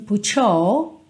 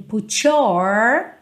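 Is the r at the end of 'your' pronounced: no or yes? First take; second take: no; yes. First: The r in 'your' is dropped, tongue not curled. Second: The r in 'your' is pronounced, tongue curled. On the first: The speaker calls it right. "ela não enrola a língua no your" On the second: The speaker calls it wrong. "então a gente não tem put your"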